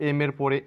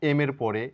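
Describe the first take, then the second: The two takes are said the same way.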